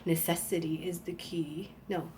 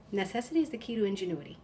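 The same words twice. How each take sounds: First: Hushed, voiceless whisper of the saying; whispered to herself. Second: Said in the usual way. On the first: Shown as a demonstration. Trying to recall a saying, whispered. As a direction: whisper it as if recalling a half-remembered line. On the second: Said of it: "Yes, that's it".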